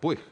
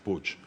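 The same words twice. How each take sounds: First: The name is pronounced another regional Spanish way. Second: The name is pronounced the Catalan way. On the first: This is how some other regions of Spain say it. "en algunas regiones de España se pronuncia Puig" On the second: This follows the family's Barcelona origin. "como mi abuelo materno venía de Barcelona, es Puig"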